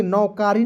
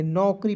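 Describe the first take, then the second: First: नौकारी with a long aa, nau-kaa-ree; wrong pronunciation. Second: नौकरी as nau-kree, no long middle vowel; correct pronunciation. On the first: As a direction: stretch the middle of नौकारी into kaa. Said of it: "नौकारी नहीं पढ़ेंगे". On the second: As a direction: say नौकरी with kar squeezed short. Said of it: "नौकरी पढ़ेंगे". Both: Shown as a demonstration.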